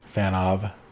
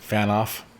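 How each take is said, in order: First: The name ends with a V sound. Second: The name ends with an F sound. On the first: The speaker calls it right. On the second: The speaker calls it wrong.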